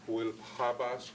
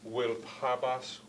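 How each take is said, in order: Both takes have the same delivery.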